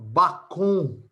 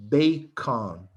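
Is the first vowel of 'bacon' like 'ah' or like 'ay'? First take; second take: ah; ay. First: The first vowel sounds like 'ah'. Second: The first vowel sounds like 'ay'. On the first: The speaker calls it wrong. "Why nobody says" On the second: The speaker calls it right. "Everybody says bacon"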